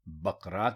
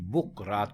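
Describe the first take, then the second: First: The first vowel is a short a. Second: The first vowel is a short u. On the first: The speaker calls it right. "दुरुस्त लफ्ज भी बकरात ही है" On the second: The speaker calls it wrong. "पेश के साथ बोलते हैं"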